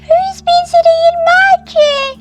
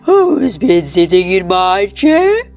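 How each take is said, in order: First: It is said in a tiny, squeaky voice. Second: It is said in a deep, gruff voice.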